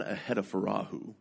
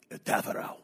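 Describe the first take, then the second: First: Ahedafarahu in five syllables, ending in a "hoo"; mistaken pronunciation. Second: Etafarao in four syllables, ending in "ow"; native pronunciation. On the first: Guide quoting the family's mistake, Ahedafarahu ending in "hoo". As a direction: say Ahedafarahu as "a-hed-a-fa-RAH-hoo". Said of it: "It's not Ahedafarahu". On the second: Guide correcting the name, Etafarao ending in "ow". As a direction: say Etafarao quietly as "e-taf-a-row", row rhyming with cow. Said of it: "It's Etafarao". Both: Retold or imitated.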